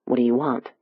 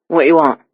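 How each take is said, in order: First: Said in the usual way. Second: Confident Cockney demand; East End dialect. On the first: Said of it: "an American speaking the East End dialect". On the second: A narrator's reading. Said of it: "speaking the East End dialect with such confidence".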